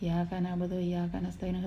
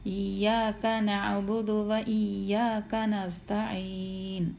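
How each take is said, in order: First: Said hurriedly with the doubled 'y' sound dropped. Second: Said clearly with the doubled 'y' sound kept. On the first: The speaker calls it wrong. "ധൃതിക്ക് അങ്ങോട്ട് കയറിയിട്ട്" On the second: The speaker calls it right. "നല്ലോണം വ്യക്തമായിട്ട് പറഞ്ഞിട്ട്"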